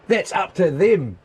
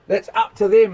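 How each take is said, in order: First: Said in the usual way. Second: "them" pushed louder; emphatic repeat. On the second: Shown as a demonstration. Ranting mechanic to viewer, insisting with stress on "them".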